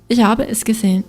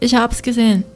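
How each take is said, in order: First: Every word is said in full, flowing together. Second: 'Habe es' is shortened to one syllable.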